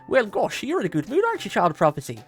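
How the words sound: It is said in an Irish accent.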